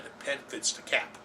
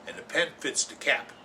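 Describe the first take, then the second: First: Whispered. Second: Said in the usual way. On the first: Shown as a demonstration. Host whispering the rule to viewers. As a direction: whisper The pen fits the cap, soft and unvoiced.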